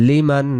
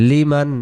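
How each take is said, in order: No difference in how they are said.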